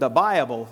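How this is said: It is said in an exaggerated preacher style. The speaker calls it wrong. "Maybe too much Southern Baptist preaching when I was a kid"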